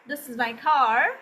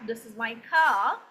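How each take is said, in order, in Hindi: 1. यह अमेरिकी उच्चारण में कहा गया है। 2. यह ब्रिटिश उच्चारण में कहा गया है। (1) "this is American accent" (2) "so that means British accent"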